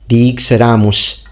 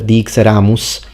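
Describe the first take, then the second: First: The s is retracted, sounding more like sh. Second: The s is a sharp front hiss. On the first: "dixeramus instead of" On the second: "instead of dixeramus"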